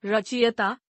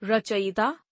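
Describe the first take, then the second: First: रचयिता as "rachiyata"; mispronounced. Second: Said in the usual way. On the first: Shown as a demonstration. Teacher showing an i error, mispronounced as rachiyata. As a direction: swap vowels in रचयिता, i before ya. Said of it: "अशुद्ध". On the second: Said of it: "शुद्ध".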